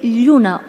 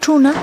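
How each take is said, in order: First: The word begins with a palatal ll sound. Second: The word begins with a retroflex ch sound. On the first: This is how most of the region says it. "en el resto de Asturias tienen una lle" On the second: This is how the western variety says it. "la che vaquera"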